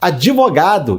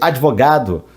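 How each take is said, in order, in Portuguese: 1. É acrescentada uma vogal extra entre o d e o v. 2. Nenhuma vogal extra é acrescentada entre o d e o v. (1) "nós brasileiros pisamos mais na vogal" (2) "em vez de"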